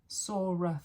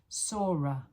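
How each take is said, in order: The two takes are said the same way.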